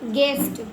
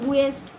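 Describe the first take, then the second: First: The u is silent, giving gest. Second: The u is sounded as a separate vowel. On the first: The speaker calls it right. "जी यू E S T को गेस्ट" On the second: The speaker calls it wrong. "अब इसको हम गूस गुएस्ट नहीं पढ़ते ना"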